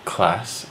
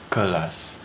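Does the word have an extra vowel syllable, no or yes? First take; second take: no; yes. First: It is said with no extra vowel. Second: It is said with an added vowel syllable. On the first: This is how English speakers say it. "We say class" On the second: This is how local speakers say it. "They put a little extra vowel syllable in there"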